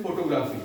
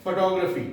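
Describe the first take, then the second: First: फोटोग्राफी as foto-GRAA-fee; common mispronunciation. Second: फोटोग्राफी as fuh-TOG-ruh-fee; correct pronunciation. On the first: Retold or imitated. Teacher quotes what people generally say, फोटोग्राफी as foto-graa-fee. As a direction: say फोटोग्राफी with full O's and a long AA. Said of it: "लोग generally क्या बोलते हैं". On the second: Shown as a demonstration. Teacher answers what is correct, फोटोग्राफी as fuh-TOG-ruh-fee. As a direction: stress TOG in फोटोग्राफी, falling at the end. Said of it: "सही क्या होगी?".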